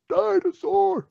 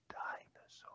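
First: It is said loudly. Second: It is said quietly.

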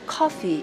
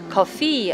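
First: The stress falls clearly on the first syllable. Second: The stress is spread evenly across both syllables. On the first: The speaker calls it right. "앞에 액센트가 있단 말이에요" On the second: The speaker calls it wrong. "커피 아니고"

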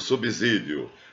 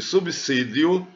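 First: The middle consonant sounds like z. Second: The middle consonant sounds like s. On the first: The speaker calls it wrong. "não pode ser lido subsídio" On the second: The speaker calls it right. "ele está entre um B e um I"

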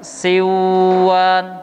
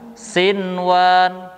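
First: The n merges into the following w. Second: The n is pronounced clearly before the w. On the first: The speaker calls it wrong. "itu salah" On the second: The speaker calls it right. "Tetapi dibaca dengan sinwan"

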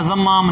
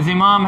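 First: The first vowel is a and m is doubled. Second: The first vowel is i and m is short. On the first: The speaker calls it wrong. "ज़म्माम नहीं है" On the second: The speaker calls it right. "ज़िमाम है"

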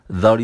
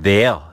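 First: The word is slurred lightly and quickly. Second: The word is pronounced fully and clearly. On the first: It only introduces the sentence. "there를 살짝 흘리듯이 발음해요" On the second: It means at that place. "정확하게 발음하는"

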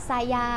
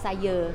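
First: The word ends with an open 'ah' vowel. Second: The word ends with a central 'uh' vowel. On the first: "ซายาที่แปลว่าชั้น" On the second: "แต่คือคำเดียวกัน"

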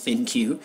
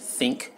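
First: The name is said as two syllables, thin cue. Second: The name is said as one syllable, think. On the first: The speaker calls it right. "The correct pronunciation is Thin Q" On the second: The speaker calls it wrong. "Some people may say the V40 Think"

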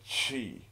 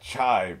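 First: The vowel sounds like the i in children. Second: The vowel sounds like the word eye. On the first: The speaker calls it right. "C-H-I as in children" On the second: The speaker calls it wrong. "So not chai"

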